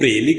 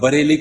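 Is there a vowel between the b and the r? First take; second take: no; yes. First: The b and r join into a cluster. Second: A vowel separates the b and the r. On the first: How a Punjabi speaker says it. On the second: The standard pronunciation.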